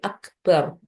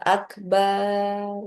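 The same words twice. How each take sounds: First: The vowel after the b is kept short. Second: The vowel after the b is drawn out long. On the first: The speaker calls it right. "baknya juga eh, tidak panjang" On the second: The speaker calls it wrong. "ini tidak boleh. Tidak boleh dipanjangkan"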